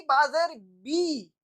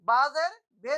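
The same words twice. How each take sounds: First: बाजेर बी slow, with a clear long ee at the end; the correct बी, slowly; slow right reading बाजेर बी; correct ee sound. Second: बाजेर बे said with an e ending as the mistake; the incorrect बे, shown as a mistake; wrong reading बाजेर बे; wrong be sound. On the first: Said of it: "बे नहीं कहेंगे". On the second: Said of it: "बाजेर बे नहीं". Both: Shown as a demonstration.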